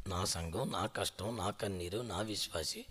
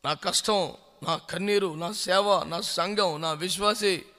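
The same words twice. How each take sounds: First: Lower, much softer mocking of "నా" each time; mocking echo. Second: Said in the usual way. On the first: Preacher mocking a proud pastor's complaint, low and soft. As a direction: sneer the man's complaint back quietly. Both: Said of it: "ఎటకారంగా మాట్లాడుతున్నావు".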